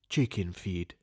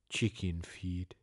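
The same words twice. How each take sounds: First: It is said without an exhale first. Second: It is said after an audible exhale.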